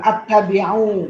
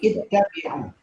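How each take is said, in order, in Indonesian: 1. Kata ini diawali dengan bunyi 'a'. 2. Kata ini diawali dengan bunyi 'i'. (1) "bacanya bukan at-tabi'u" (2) "tapi ittabi'u"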